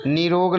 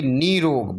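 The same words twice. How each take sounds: First: निरोग with a brief ni; short i. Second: निरोग with a held nee; long ee. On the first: Teacher showing the error, निरोग with short ni. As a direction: clip ni in निरोग. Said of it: "छोटी नी". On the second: Teacher giving the correction, निरोग with long nee. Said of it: "बड़ी नी की मात्रा". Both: Shown as a demonstration.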